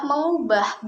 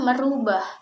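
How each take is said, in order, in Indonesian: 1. Kata ini diawali dengan bunyi meng. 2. Kata ini diawali dengan bunyi mer. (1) "Yang benar adalah"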